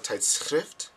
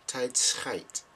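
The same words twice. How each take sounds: First: Tijdschrift with short i and ft ending; correct word. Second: Tijdschrift said as tijd-schijt; wrong word. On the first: Explaining the mix-up, tijdschrift pronounced correctly. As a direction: say tijdschrift properly, ending like shift. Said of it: "tijdschrift means magazine". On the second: Explaining the mix-up, tijdschrift mispronounced as tijd-schijt. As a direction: turn tijdschrift's ending into a rhyme with kite. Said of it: "instead of tijdschrift". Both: Shown as a demonstration.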